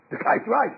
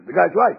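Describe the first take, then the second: First: Said in the usual way. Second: Chuckling through The guy's right; laughing concession. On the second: Retold or imitated. Egyptians conceding about Moshe, laughing The guy's right.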